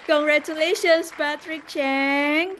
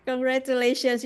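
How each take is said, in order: First: Hyped giveaway announcement. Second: Said in the usual way. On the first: Real, not acted. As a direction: cheer the winner's name like a game show. Announcing lucky draw winner.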